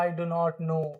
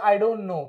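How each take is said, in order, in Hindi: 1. Do और not दो अलग शब्दों की तरह बोले जाते हैं। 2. Do और not एक ही अक्षर (syllable) में मिल जाते हैं। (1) "पुराने लोग आज भी इस तरह से do not बोलते. That's not okay" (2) "जब इसको प्रोनाउंस करेंगे तो क्या प्रोनाउंस करेंगे? आई डोंट"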